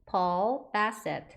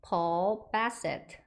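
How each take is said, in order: Both takes have the same delivery.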